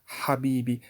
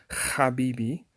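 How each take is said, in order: First: "habibi" opening on a breathed H; Arabic pronunciation. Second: "habibi" opening on a scraped kh; mistaken kh pronunciation. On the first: Teacher showing the proper Arabic het, breathed H. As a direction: say "habibi" with the H breathed, never scraped. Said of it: "in Arabic". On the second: Teacher showing what it is not, rasped kh. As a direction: scrape the first sound of "habibi" like Bach's ch. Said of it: "It's not habibi". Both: Shown as a demonstration.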